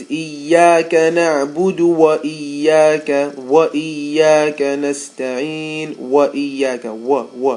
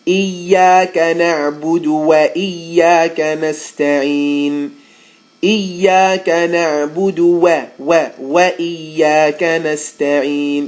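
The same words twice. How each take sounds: First: وإياك with a heavy, rounded waw; heavy waw mistake. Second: وإياك with a light waw, loud; light waw recitation. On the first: Teacher imitating a heavy waw. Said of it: "you'll hear a lot of times". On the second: Teacher modelling the light waw in the verse. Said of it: "correct light waw recitation". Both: Shown as a demonstration.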